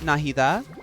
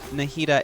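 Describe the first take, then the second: First: The consonant after 'Nahi' is a soft sound. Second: The consonant after 'Nahi' is a hard d. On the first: The speaker calls it right. "Softy sound" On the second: The speaker calls it wrong. "it's not pronounced Nahida"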